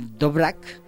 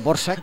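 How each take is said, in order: First: The name is not pronounced the Czech way. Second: The name is pronounced the Czech way. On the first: The speaker calls it wrong. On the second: The speaker calls it right.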